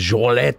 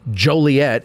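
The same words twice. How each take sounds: First: The name is pronounced with French sounds. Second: The name is pronounced with English sounds. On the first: "instead of Joliet or whatever the fuck it's supposed to be" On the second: "So if we say Joliet"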